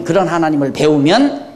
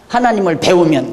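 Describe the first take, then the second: First: 배우면 lengthened, ending on a rise; rising stress. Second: 하나님을 said flat with a falling end; 하나님을 stated plainly, voice dropping; 하나님을 with a simple fall. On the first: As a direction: lean on 배우면 and lift it at the end. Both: Shown as a demonstration.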